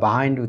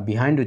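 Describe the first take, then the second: First: The first syllable has a short 'buh' vowel. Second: The first syllable has an 'ee'-like vowel. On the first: This is the usual American and colloquial form. "সাধারণত আমেরিকানরা বাহাইন্ড উচ্চারণ করে" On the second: This is the usual British and dictionary form. "ব্রিটিশরা বিহাইন্ড উচ্চারণ করে"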